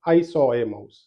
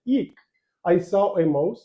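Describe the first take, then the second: First: It is said in a flat, boring tone. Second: It is said in a fearful, excited tone.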